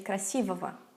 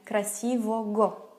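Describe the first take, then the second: First: The consonant before the ending is a v sound. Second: The consonant before the ending is a g sound. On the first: This is how it is spoken. "but we say" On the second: This follows the spelling. "we would spell it again"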